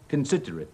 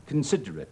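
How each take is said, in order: First: The unstressed vowels are weak and reduced. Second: The unstressed vowels are weak and reduced.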